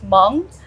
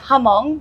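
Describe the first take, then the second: First: No vowel is inserted, making one syllable. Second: A vowel is inserted, making two syllables. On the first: The speaker calls it right. "but really it's Hmong" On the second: The speaker calls it wrong. "people pronounce it Hamong"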